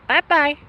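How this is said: It is said in a put-on cartoon voice.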